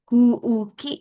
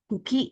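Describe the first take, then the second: First: The first vowel is long. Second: The first vowel is short. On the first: It means air. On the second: It means plant stem.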